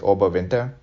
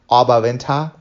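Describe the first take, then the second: First: The name is said with an English pronunciation. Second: The name is said with a German pronunciation. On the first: Local people did not recognize the place. "the English way of saying it" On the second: Local people recognized the place. "the way the Germans say it"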